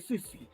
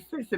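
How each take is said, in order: First: It is said in a New Orleans accent. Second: It is said in a general, standard accent. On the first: "they say sissy" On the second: "they don't say sissy"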